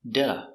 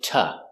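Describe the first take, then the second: First: It has a quick D and a weak vowel. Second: It has a T and a weak vowel. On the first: "pronounced with a D sound" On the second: "we pronounce it ta"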